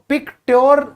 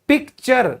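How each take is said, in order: First: The second syllable sounds like 'tyoor'. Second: The second syllable sounds like 'cher'. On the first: The speaker calls it wrong. "पिक्ट्योर कई लोग पढ़ने की कोशिश करेंगे जिन्होंने सुना नहीं है" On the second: The speaker calls it right. "जैसे आप कहते हो पिक्चर"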